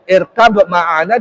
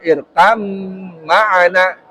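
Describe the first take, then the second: First: The first word ends with a b sound. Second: The b merges into the following m sound. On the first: This is how it is written. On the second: This is how it is actually recited.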